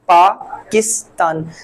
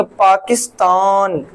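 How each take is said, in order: First: पाकिस्तान in three unforced beats, paa, kis, taan; slow पाकिस्तान with clean gaps between syllables; natural syllable split. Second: पाकिस्तान with syllables dragged out in a forced way; labored, drawn-out पाकिस्तान; forced pronunciation. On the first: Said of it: "जुबान को बोलते हुए". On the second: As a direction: overdo पाकिस्तान as a wrong example, stretching the last taan. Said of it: "जोरी जबरदस्ती नहीं बनाएंगे". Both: Shown as a demonstration.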